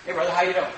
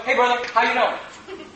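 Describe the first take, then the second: First: Casual greeting. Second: Slow, soft, laughing greeting; softly amused hello; Jesus greeting. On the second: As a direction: greet him gently with a smile. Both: Shown as a demonstration. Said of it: "Would anybody think it's weird for me to go".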